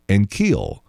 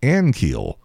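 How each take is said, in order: First: The stress is on the second syllable. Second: The stress is on the first syllable. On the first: The speaker calls it wrong. "The accent on the second syllable" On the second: The speaker calls it right. "It's not. It's Ankiel"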